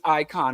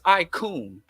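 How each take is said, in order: First: The second syllable is said as 'con'. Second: The second syllable is said as 'coon'. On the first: "I don't say it's icon" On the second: "I put an extra O in icon"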